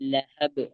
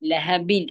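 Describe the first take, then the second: First: The word ends sharply on the consonant b. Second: The word ends with an added -in syllable. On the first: "അവിടെ സുക്കൂന് നമ്മൾ ചെയ്ത് ഉച്ചരിക്കുന്നു" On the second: "അവിടെ ബായിന് കെസറു തൻവീൻ"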